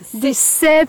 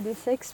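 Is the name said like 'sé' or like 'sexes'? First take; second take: sé; sexes. First: The name sounds like a short 'sé'. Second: The name sounds like the word 'sexes'. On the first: This is how locals say it. The speaker calls it right. "on dit l'arête des C. En patois local" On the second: This is how people who have never been here say it. The speaker calls it wrong. "des sexes pour tout un chacun qui n'est jamais venu ici"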